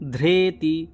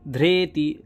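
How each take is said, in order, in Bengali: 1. প্রথম অক্ষরটি 'dhre' হিসেবে উচ্চারিত হয়। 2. প্রথম অক্ষরটি 'dhre' হিসেবে উচ্চারিত হয়।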